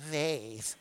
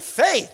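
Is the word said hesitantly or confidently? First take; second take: hesitantly; confidently. First: It is said hesitantly and half-heartedly. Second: It is said firmly and with conviction.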